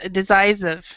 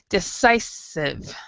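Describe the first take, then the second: First: The middle 's' sound is weak. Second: The middle 's' sound is strong. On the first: The speaker calls it wrong. "what you said was decisive" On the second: The speaker calls it right. "with the C, you have to actually have it kind of stronger"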